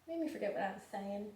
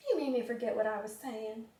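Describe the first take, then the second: First: Soft, fast mutter to the pet; quiet aside. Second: Said in the usual way. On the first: Real, not acted. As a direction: toss it off quietly and quickly, half to yourself.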